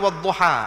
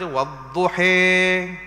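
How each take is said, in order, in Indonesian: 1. Vokal akhirnya a terbuka. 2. Vokal akhirnya condong ke e. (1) "kita baca wadduha" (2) "mazhab lain baca wadduhi. itu dipanggil imalah"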